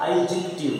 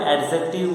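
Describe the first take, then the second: First: एडजेक्टिव said as "ij-ik-tiv", clipped and falling; correct pronunciation. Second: एडजेक्टिव with the wrong Hindi-style vowels; wrong pronunciation. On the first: Teacher models the correct form for students. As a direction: give the right English sound of एडजेक्टिव. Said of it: "इसका जो correct pronunciation हो जाएगा". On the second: Teacher shows the wrong way to say a word. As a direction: say एडजेक्टिव the mistaken way, as students do. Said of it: "wrong pronunciation है". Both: Shown as a demonstration.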